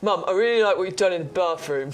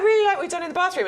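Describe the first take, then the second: First: It is said in an exaggerated deep voice. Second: It is said in a normal, undeepened voice.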